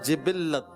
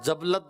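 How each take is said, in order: First: The word begins with 'ji' and has three syllables. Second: The word begins with 'ja' and has two syllables. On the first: The speaker calls it right. "दुरुस्त है।" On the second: The speaker calls it wrong. "जबलत word नहीं है।"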